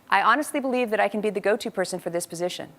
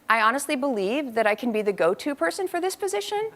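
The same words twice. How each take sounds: First: The voice falls at the end of the phrase. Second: The voice rises at the end of the phrase. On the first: The speaker sounds more committed and mature. The speaker calls it right. "My daughter will be saying" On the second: The speaker sounds less committed and mature. The speaker calls it wrong. "the person in front of her being interviewed is saying something like"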